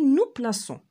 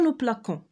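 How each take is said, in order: First: The middle consonant is a soft s sound. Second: The middle consonant is a hard k sound. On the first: The speaker calls it right. "mais on dit nous plaçons" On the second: The speaker calls it wrong. "On ne dit pas nous plaquons"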